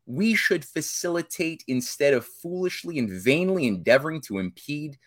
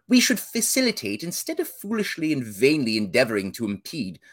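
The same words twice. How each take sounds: First: It is read in the speaker's ordinary accent. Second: It is read in a put-on British accent.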